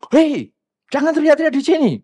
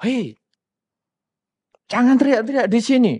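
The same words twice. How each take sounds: First: High, loud escalating reprimand; louder angry shout. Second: Raised, higher-pitched telling-off; angry scolding. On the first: Impatient person out-shouting the noisy latecomer, angry shout. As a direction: yell it harder, acting out lost patience. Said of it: "Akhirnya kita lebih kencang lagi". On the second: Impatient person telling a latecomer to stop shouting, angry. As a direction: act out scolding a noisy latecomer. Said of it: "kita marah sama dia". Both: Acted.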